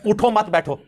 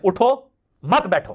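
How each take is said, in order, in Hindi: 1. विराम दूसरे शब्द के बाद है। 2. विराम पहले शब्द के बाद है। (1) "अगर आप उठो मत के ऊपर रुक जाए तो इसका मतलब उठो मत बैठ जाओ" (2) "अगर आप ना रुके तो उठो पे रुक जाए"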